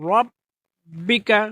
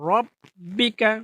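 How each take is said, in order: Both takes have the same delivery.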